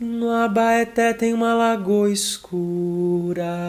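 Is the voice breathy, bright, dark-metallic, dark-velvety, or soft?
soft. The voice is soft, velvety and set back. "um timbre mais aveludado... mais posterior, ele vai ser mais macio"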